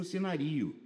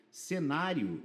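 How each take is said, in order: First: Cenario stressed on RI, as if cenaRIo; wrong stress. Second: Cenário stressed on the NÁ; correct stress. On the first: Teacher showing how the unaccented word looks, stress on RI. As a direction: shift the weight of cenario onto RI. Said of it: "Aqui tá parecendo". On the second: Teacher explaining the accented paroxytone, stress on NÁ. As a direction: put the weight of cenário on NÁ. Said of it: "é paroxítona terminada de tom crescente". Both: Shown as a demonstration.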